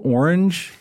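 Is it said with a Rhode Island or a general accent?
general. It is said in a general, non-regional accent.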